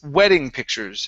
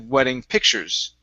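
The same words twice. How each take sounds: First: The stress falls on the word wedding. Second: The stress falls on the word pictures. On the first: The speaker calls it right. "we want to stress wedding" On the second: The speaker calls it wrong. "instead of"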